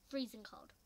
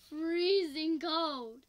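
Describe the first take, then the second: First: Said in the usual way. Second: FREEZING COLD, loud and very slowly stretched; loud, dragged-out exclamation of FREEZING COLD; drawn-out emphasis. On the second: Real, not acted. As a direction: stretch out both words of FREEZING COLD loudly. Repeats it to exaggerate the cold.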